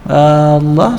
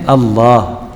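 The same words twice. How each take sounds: First: The first vowel is drawn out long. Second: The first vowel is kept short. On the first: The speaker calls it wrong. "suka sebut gitu. Sebenarnya salah" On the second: The speaker calls it right. "yang sepatutnya Allah"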